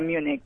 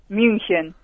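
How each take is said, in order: First: The name has an English pronunciation. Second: The name has a German pronunciation. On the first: "En inglés sería Múnich" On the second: "¿y en alemán?"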